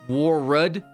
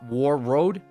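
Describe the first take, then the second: First: The second syllable is reduced to a weak 'rud'. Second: The second syllable is a full 'road'. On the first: The speaker calls it right. "is pronounced Warrud" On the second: The speaker calls it wrong. "and not War Road"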